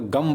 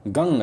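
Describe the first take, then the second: First: The syllable ends with an m sound. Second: The syllable ends with an ng sound. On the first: The speaker calls it wrong. "गम पढ़ेंगे तो भी दिक्कत होगी" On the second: The speaker calls it right. "गंग है"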